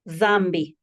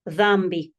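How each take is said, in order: First: The word begins with a voiced th sound. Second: The word begins with a voiced th sound.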